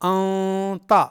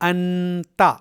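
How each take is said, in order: First: The n sound is hidden in the nose. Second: The n sound is pronounced clearly. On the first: The speaker calls it right. "ये इख्फा है" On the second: The speaker calls it wrong. "ये इजहार है"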